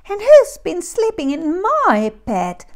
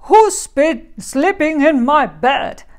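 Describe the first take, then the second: First: It is squeaked in a high voice. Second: It is growled in a deep voice.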